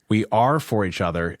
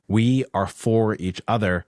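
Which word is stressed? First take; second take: are; for. First: The stress falls on the word are. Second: The stress falls on the word for. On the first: They literally exist for one another. "shifts the meaning towards this idea of literally existing for one another" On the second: The relationship is about being devoted toward each other. "has this kind of stress on the forness"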